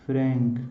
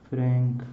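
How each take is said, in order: Both takes have the same delivery.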